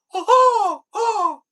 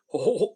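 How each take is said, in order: First: It is said in Mickey Mouse's high voice. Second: It is said in Goofy's voice.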